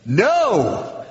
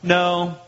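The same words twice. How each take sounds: First: NO pitched high with a big fall; a drawn-out, forceful NO; very emphatic. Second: Flat, matter-of-fact no. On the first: Preacher voicing Jesus' answer in the original, very emphatic. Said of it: "it's very emphatic". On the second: Preacher showing how the translation reads, flat. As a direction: say it level and unemphatic. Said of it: "it seems kind of flat". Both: Shown as a demonstration.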